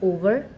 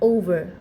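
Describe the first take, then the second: First: The first vowel is a plain short o. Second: The first vowel glides from o to u. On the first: The speaker calls it wrong. "যেটা আমরা পূর্বে ... এভাবে ভুল উচ্চারণ করে থাকতাম" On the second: The speaker calls it right. "কিছু কিছু ওয়ার্ড ও এর অরিজিনাল সাউন্ডটাই হয়ে থাকে"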